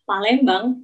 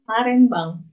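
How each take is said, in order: First: The middle consonant is an L sound. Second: The middle consonant is an R sound. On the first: "Orang Jepang nggak bisa ngomong L" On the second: "jadi Palembang dibacanya Parembang"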